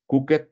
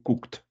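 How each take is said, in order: First: Cooked said as two syllables, cook-ed, with a spoken e; Cooked with an extra vowel before the d; wrong pronunciation. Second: Cooked in one syllable ending in a t sound, kukt; cooked clipped to one beat, no extra vowel; correct pronunciation. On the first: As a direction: sound out Cooked as kuket, the mistake to avoid. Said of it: "Cooked, ¿no?". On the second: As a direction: say cooked as if it had a final T. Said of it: "como si tuviera T final". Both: Shown as a demonstration.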